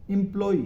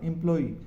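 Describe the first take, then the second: First: एम्प्लॉय ending flat on o, im-plo, louder; the mistaken एम्प्लॉय without the final i; wrong version. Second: एम्प्लॉय ending in a short i, im-ploi; correct version. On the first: Teacher showing the wrong way to say employ. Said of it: "एम्प्लॉय नहीं है". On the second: Teacher giving the correct employ with final i. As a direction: finish एम्प्लॉय with a clear i. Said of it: "last में ई आएगा". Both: Shown as a demonstration.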